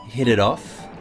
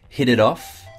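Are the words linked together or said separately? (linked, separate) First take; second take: linked; linked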